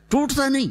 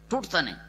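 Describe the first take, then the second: First: ٹوٹتا stressed high and sharp. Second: ٹوٹتا نہیں dropped soft and falling; quiet repeat. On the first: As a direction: lift ٹوٹتا high and punch it. (ٹوٹتا پر زور اونچی آواز میں) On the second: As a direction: let ٹوٹتا fall softly. (ٹوٹتا نہیں دھیمی آواز میں) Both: Shown as a demonstration.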